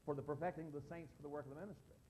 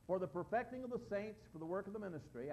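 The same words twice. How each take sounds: First: It runs on as one unbroken phrase. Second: A pause splits it into two phrases. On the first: The first purpose serves the second as one thing. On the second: Two separate purposes are listed.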